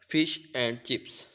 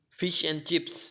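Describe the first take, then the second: First: Each word is stressed; 'and' has a full vowel. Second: 'And' is unstressed and reduced to a short n. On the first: The speaker calls it wrong. "If we say this slowly and stress each word" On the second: The speaker calls it right. "It is unstressed and pronounced as n"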